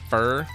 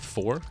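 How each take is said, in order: First: It is said in his regional accent, as 'fur'. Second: It is said in standard form, as 'for'.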